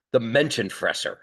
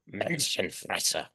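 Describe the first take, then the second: First: Said in the usual way. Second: "Menschenfresser" in a soft, slow, put-on German accent; hammed-up German accent, drawn-out "Menschenfresser"; mock German accent. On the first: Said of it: "So I'm gonna try my German here". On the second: Shown as a demonstration. Lecturer jokingly tries the German word in a German accent. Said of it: "if you wanna do it in a German accent".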